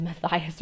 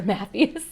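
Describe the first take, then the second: First: Matthias as muh-THIGH-us; long-i pronunciation. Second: Matthias as MATH-ee-us; ee-sound pronunciation. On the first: Reader unsure about a character's name, Matthias said muh-THIGH-us. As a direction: say Matthias with a stressed THIGH in the middle. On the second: Reader giving the alternative for a character's name, Matthias said MATH-ee-us. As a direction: say Matthias with MATH first and an ee after. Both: Shown as a demonstration. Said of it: "I'm not sure".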